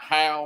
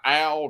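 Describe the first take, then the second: First: The name starts with an audible H sound. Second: The name starts with a vowel, no H. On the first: The speaker calls it wrong. "not Hal" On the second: The speaker calls it right. "we don't pronounce the H in Brian Al's name"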